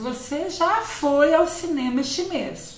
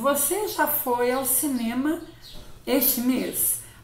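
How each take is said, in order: First: It is said as an excited exclamation. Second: It is said as a calm statement.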